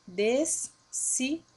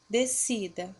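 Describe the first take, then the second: First: "descida" said slowly in separate syllables, des, si, da; split into syllables. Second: Said in the usual way. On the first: Shown as a demonstration. Teacher shows the digraph separates, "descida" slowly split as des-si-da. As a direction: break "descida" into des... si... da, with gaps. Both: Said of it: "Ele se separa".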